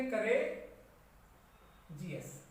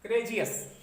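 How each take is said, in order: First: करेजियस broken into करे ... जी एस with pauses; syllable by syllable. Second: करेजियस said as one smooth word; whole word. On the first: Teacher writing करेजियस in Hindi for students, syllables split. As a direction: sound out करे, then जी एस, slowly and apart. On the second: Teacher reading करेजियस whole to students after splitting it. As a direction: join करेजियस into a single word. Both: Shown as a demonstration. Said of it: "Hindi में अगर हम इसको लिखें".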